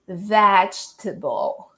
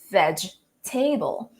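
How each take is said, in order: First: The ending is weaker, unlike the word table. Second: The ending sounds like the word table. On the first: The speaker calls it right. "it's pronounced actually as vegetable" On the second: The speaker calls it wrong. "we tend to pronounce it as vegetable because we already know how to pronounce the word table"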